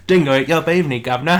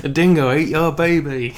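First: Louder, put-on cockney accent, laughing on governor; mock cockney. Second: Loud, put-on Australian accent that drifts into cockney; a bad Aussie impression going cockney; mock Australian slipping into cockney. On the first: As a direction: play it as a cheeky cockney. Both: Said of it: "a weird cockney came in through there".

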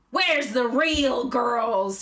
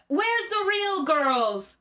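First: Nicolas Cage moaning. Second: High, drawn-out shout; Nicolas Cage shouting. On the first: Host acts Cage moaning at the dining room. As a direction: wail it out, every word stretched. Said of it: "he moaned". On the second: Host acts Cage shouting at the diners. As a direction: call it out high across a room. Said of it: "he shouted". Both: Acted.

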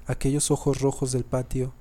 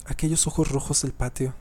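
No difference in how they are said.

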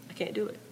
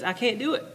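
First: Much softer, high-pitched echo; Joseph repeating softly. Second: High-pitched reply with a rising end; Joseph declining. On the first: Joseph admits it to Pharaoh, softly repeated. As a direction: repeat it small and quiet. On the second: Joseph answers Pharaoh, pitched-up admission. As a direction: lift the voice, plainly helpless. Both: Acted. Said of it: "Joseph goes".

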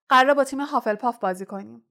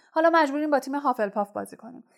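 First: Quoted words rushed and a bit louder, قراره rising; indignant retelling of the rival's words; mock quoting, indignant. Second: Fast, higher, حالا pushed up bitterly; bitter complaint to the team, rushed and raised. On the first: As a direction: rattle off the rival's excuse in disbelief. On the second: Acted. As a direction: spit it out in bitter frustration. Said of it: "وود به تلخی گفت".

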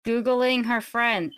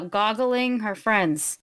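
First: Said in the usual way. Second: "goggling" with "gog" in place of "goo"; corrected word. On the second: Real, not acted. Player fixing the in-world word, saying "goggling". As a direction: slowly correct it to "goggling", rhyming with boggling.

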